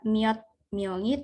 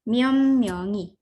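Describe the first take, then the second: First: The first word ends in a t sound. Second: The first word ends in an m sound. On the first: The speaker calls it wrong. "bukan juga miot myongi" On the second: The speaker calls it right. "tapi jadi M semua"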